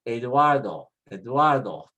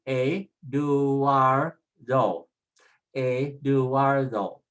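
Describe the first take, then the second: First: Eduardo run together smoothly as eh-DWAR-doh; all together. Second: Eduardo stretched out slowly as eh-doo-AR-doh; sounded out slowly. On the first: Teacher puts it all together now, whole word joined. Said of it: "when we put it all together now". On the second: Teacher puts the vowels together for learners, sounding out slowly. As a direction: draw out each syllable of Eduardo. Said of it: "When we put it together". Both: Shown as a demonstration.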